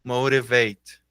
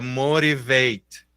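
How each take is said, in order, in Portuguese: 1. O "t" do meio soa como um "r" leve. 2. O "t" do meio soa como um "r" leve.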